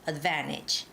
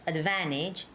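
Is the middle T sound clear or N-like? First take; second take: N-like; N-like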